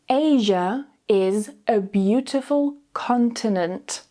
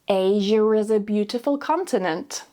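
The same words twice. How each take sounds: First: It is said very slowly, word by word. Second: It is said naturally, sounds joined smoothly. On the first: "Say each sentence very slowly first" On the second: "then naturally joining the sounds together smoothly with the intrusive R"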